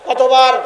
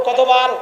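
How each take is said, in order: The two takes are said the same way.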